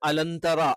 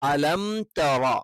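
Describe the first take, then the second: First: The meem blurs into an n sound before tara. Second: A full m with closed lips before tara. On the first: The speaker calls it wrong. "കൃത്യമായി ഉച്ചരിക്കാത്തത് കൊണ്ടാണ് അലന്തറ" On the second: The speaker calls it right. "മീം പരിപൂർണമായി ഉച്ചരിച്ചിട്ട്"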